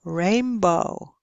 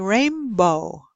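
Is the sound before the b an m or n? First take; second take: m; m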